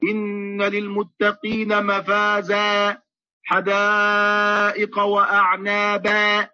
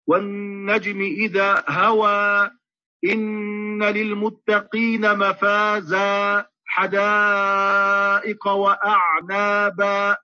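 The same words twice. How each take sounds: First: Very slow مفازا and وأعنابا with the lips spread in a smile; imitation of a wrong recitation. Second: Very slow chant, مفازا and وأعنابا with jaws wide apart; correct recitation with fatḥ. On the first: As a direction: mimic the common mistaken reading. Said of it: "كما نسمع من كثير من الناس". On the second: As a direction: recite slowly with an open mouth. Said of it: "الفتح يكون بالتباعد بين الفكين". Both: Shown as a demonstration.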